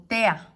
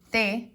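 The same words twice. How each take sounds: First: "tea" slowly joined into one syllable; sinalefa. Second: "te" said as its own syllable, apart from "amo"; "te" on its own, clearly cut off before the next word; sílabas separadas. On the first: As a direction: glide "te" straight into "a" as one slow syllable, "tea". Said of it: "decimos junto tea". ("tea" unido en una sola sílaba, despacio) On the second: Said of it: "en lugar de separarlas en dos sílabas". ("te" como sílaba aparte, separada de "amo") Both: Shown as a demonstration.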